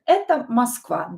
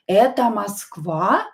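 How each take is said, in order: First: It is said with statement intonation. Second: It is said with question intonation.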